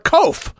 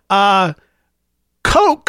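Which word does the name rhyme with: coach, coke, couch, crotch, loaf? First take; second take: loaf; coke. First: The name rhymes with loaf. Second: The name sounds like coke. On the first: "to rhyme with loaf" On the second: "Like the soft drink"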